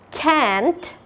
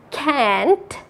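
First: It has an American accent with a flat 'a' vowel. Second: It has an American accent with a flat 'a' vowel.

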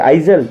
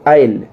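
First: A z-like sound is heard in the middle. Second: No consonant is heard in the middle. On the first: The speaker calls it wrong. "नहीं" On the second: The speaker calls it right. "नहीं आयल"

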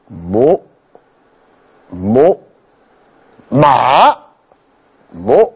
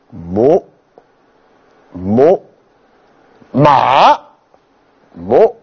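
First: The word is said with a downward pitch. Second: The same.

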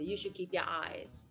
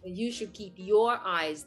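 First: The words run together in a relaxed American style. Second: Each word is pronounced carefully and separately. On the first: The speaker calls it right. "これがまたかっこいい、今の言い方。" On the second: The speaker calls it wrong. "って言わへんと"

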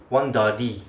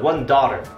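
First: It is spoken with a Singaporean accent. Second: It is spoken with an American accent. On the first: "In Singapore, it's one dali" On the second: "in American English"

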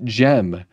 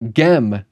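First: The word begins with a soft j sound. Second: The word begins with a hard g sound. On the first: The speaker calls it wrong. "not GEM" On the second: The speaker calls it right. "Just like it's GEM"

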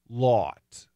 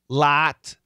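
First: The vowel is the AW sound. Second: The vowel is the short O sound. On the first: The speaker calls it wrong. "I'll do a short O and AW" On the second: The speaker calls it right. "I'll do a short O and AW"

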